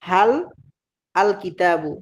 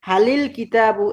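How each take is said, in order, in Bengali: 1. শব্দ দুটি আলাদাভাবে উচ্চারণ করা হয়, মাঝে কোনো সংযোগী স্বরধ্বনি ছাড়া। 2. শব্দ দুটি একটি সংযোগী i স্বরধ্বনি দিয়ে জুড়ে উচ্চারণ করা হয়। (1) "যেমন হাল আল কিতাবু" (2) "এটাকে আমরা পড়ি"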